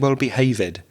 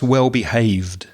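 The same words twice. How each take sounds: First: The ending is said as an extra syllable. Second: The ending adds no extra syllable. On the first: The speaker calls it wrong. "I think you said well behaved. So there's no extra syllable with that ed ending" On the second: The speaker calls it right. "So it's just well behaved"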